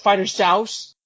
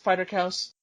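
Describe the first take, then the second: First: The second word is said as 'souse'. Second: The second word is said as 'cows'. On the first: The speaker calls it wrong. "It looks like it says Fighter Souse" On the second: The speaker calls it right. "but it's pronounced Fighter Cows"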